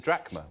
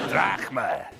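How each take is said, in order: First: It is said in the speaker's normal accent. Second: It is said in a Scottish accent.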